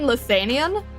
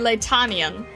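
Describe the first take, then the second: First: It is pronounced with a 'lith' start. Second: It is pronounced with a 'lat' start. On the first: The speaker calls it wrong. "I've been saying Lithanian" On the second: The speaker calls it right. "it's apparently Latanian"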